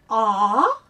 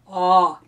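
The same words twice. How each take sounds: First: The vowel is said at a normal, higher level. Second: The vowel is said lower and deeper. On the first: "Did you say aw?" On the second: "we're going to take it down a little bit"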